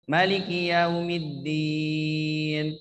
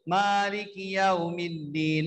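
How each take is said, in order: First: The first vowel of maliki is short. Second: The first vowel of maliki is long.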